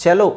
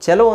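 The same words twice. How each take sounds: The two takes are said the same way.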